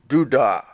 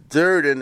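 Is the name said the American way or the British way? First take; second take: British; American. First: The name is said without the r sounds. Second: The name is said with an American r sound. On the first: The speaker calls it right. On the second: The speaker calls it wrong.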